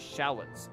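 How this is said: It is said with an American pronunciation. "Most people pronounce them shallots in America"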